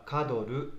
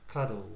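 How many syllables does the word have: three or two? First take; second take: three; two. First: The word is said with three syllables. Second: The word is said with two syllables. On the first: The speaker calls it wrong. "日本語発音では、カドルとシラブルが3 つになってしまいますが" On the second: The speaker calls it right. "2 つですね"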